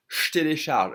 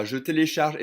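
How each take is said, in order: First: «je télécharge» as shtélécharge; fuse je into sh before télécharge in «je télécharge»; true French pronunciation. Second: «je télécharge» with je a clear syllable, louder; full form. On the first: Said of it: "the French will truly pronounce it". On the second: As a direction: sound the E of je in «je télécharge». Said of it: "If I say it faster". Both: Shown as a demonstration.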